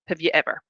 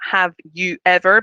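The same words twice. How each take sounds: First: 'Have you' is squashed together with a schwa. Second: Each word of 'have you' is said fully. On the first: The speaker calls it right. "I'm going to make that contraction" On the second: The speaker calls it wrong. "not have you ever"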